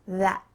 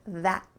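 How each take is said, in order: Both takes have the same delivery.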